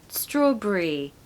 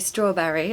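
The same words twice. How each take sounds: First: The ending is reduced to one syllable, 'bree'. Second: The ending is a full two-syllable 'berry'. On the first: The speaker calls it right. "what you will hear is people saying strawberry, brie" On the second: The speaker calls it wrong. "It's not completely wrong to say strawberry"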